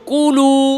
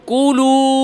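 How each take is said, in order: The two takes are said the same way.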